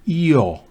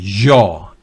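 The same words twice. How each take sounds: First: The first sound is a smooth ee-like glide. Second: The first sound is a buzzing sh-like sound. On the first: The speaker calls it right. "es con una I" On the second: The speaker calls it wrong. "no es con la Y del cono sur de América"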